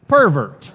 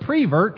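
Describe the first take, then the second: First: The first syllable is said as per. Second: The first syllable is said as pre. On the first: The speaker calls it right. "when they mean" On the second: The speaker calls it wrong. "Texans will say the word prevert"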